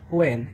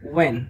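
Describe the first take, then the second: First: It begins with an audible h sound. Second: It begins without any h sound. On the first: The speaker calls it wrong. "এটা not হোয়েন" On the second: The speaker calls it right. "It's ওয়েন"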